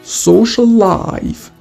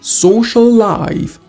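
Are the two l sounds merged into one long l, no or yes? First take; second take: yes; yes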